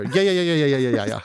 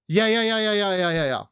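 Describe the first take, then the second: First: The repeated yeahs come at a faster pace. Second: The repeated yeahs come at a slower pace.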